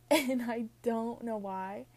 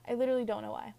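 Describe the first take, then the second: First: Put-on slow, drawn-out, louder Valley girl accent. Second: Said in the usual way. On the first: Shown as a demonstration. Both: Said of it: "I kind of sound like a Valley girl".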